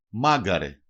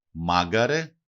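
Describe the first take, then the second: First: Μάγκαρε stressed on first syllable, falling; antepenultimate stress. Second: Μάγκαρε stressed on first syllable, rising at the end; antepenultimate stress. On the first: Teacher showing the stress rule to learners, first-syllable stress, falling. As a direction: hit the start of Μάγκαρε, then drop. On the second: Teacher repeating the example for learners, first-syllable stress, rising. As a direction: stress the start of Μάγκαρε, lift the ending. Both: Shown as a demonstration. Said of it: "προπαραλίγουσα συλλαβή".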